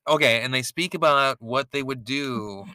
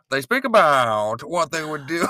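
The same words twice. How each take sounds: First: Said in the usual way. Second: Lightly put-on mid-Atlantic accent. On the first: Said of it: "use funny accents". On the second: Shown as a demonstration. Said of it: "that's like a mid-Atlantic accent".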